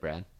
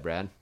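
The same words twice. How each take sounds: First: The name is said in a scared, tearful voice. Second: The name is said in a plain, calm voice. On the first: "this is how I said it" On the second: "this is what I said"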